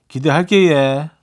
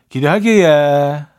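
Both takes have the same delivery.

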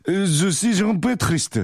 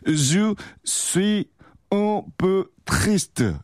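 First: The words run together with sounds linked. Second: Each word is said separately, without linking. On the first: "요거를 이어서 읽으면" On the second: "원래 따로따로 읽으면"

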